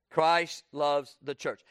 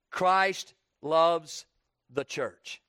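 First: "Christ loves the church" drawn out slowly; slow, weighty repeat. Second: Said in the usual way. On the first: Shown as a demonstration. Preacher repeats to the congregation, slow and deliberate. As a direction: let each word of "Christ loves the church" land. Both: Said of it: "I want you to kinda notice".

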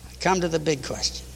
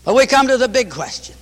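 First: Hushed. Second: Announcing. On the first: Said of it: "repeated line, hushed second". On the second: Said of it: "repeated line, louder first". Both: Real, not acted.

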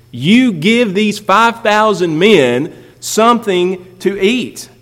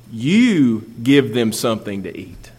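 First: "You" hit hard, higher and slow; stress on you. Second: Said in the usual way. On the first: Shown as a demonstration. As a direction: lean hard on "You", then slow through the rest. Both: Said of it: "in the Greek is very emphatic".

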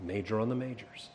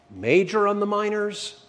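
First: Major on the majors said lower and softer, falling firmly; corrected motto. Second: Questioning rise on Major on the minors; mock wrong motto. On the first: Pastor giving the congregation the right motto, low firm fall. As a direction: settle it quietly: Major on the majors. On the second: Pastor testing the congregation with the wrong motto, questioning tone. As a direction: ask Major on the minors as a doubtful wrong version. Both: Shown as a demonstration.

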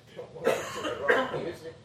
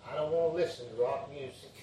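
First: Laughing through the quote. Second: Said in the usual way. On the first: Retold or imitated. Preacher repeating grandson's rock music line, laughing. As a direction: repeat it while laughing at how cute it was. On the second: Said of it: "That's what he said".

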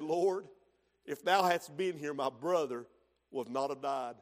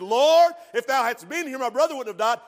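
First: Soft, lower, falling away to a hush; Mary at his feet, humbly devoted; humble, devoted. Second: Martha, hurt and accusing; confrontational. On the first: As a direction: kneel and say it in surrender. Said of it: "There's a difference in her disposition". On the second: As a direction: Lord pushed out loud and high, accusing. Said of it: "A little confrontational". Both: Retold or imitated.

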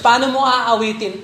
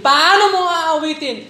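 First: Said in the usual way. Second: Higher, louder challenge on Paano; pressing the Paano mo aawitin again; emphatic repeat. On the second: Real, not acted. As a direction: push the question harder. Repeated rhetorical question.

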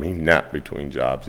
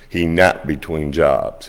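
First: Said in the usual way. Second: Slow, leaning hard on "napped"; "napped" stretched and stressed. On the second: Shown as a demonstration. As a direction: drag out "napped" to make the point. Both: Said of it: "He never, he never slept more".

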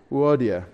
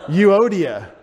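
First: Euodia as oo-DEE-ah, vowels merged; elided Greek pronunciation. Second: Euodia as "you-OH-dia", loud; mocked English pronunciation. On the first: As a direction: say Euodia short, sliding the first vowels together. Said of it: "Euodia would be how you elide all those vowels". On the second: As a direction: say Euodia anglicized with a "you" start. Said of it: "Don't go up and say". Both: Shown as a demonstration.

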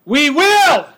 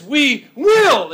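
First: "We will" said high and loud with weight on "will"; emphatic "we will". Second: "We will" shouted high with a falling "will"; loud determined "We will"; emphatic "we will". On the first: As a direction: hit "will" hard and high. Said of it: "Notice that it's emphatic". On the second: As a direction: land "will" like a vow. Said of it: "the emphatic". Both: Shown as a demonstration.

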